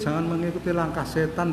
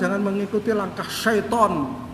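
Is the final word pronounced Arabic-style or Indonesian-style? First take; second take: Indonesian-style; Arabic-style. First: The last word has a plain Indonesian pronunciation. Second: The last word has an Arabic-style pronunciation. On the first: It comes across as gentle. "kan lembut" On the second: It comes across as offensive.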